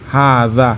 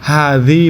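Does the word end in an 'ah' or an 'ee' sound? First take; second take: ah; ee. First: The word ends in an 'ah' vowel. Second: The word ends in an 'ee' vowel. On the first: This is the standard form. "শুদ্ধ হচ্ছে হাদা" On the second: This is the regional dialect form. "আঞ্চলিক ভাষা হচ্ছে হাদি"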